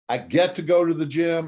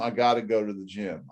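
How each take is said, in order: First: It sounds eager, like an owner. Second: It sounds reluctant, like a victim.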